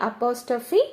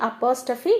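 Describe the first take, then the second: No difference in how they are said.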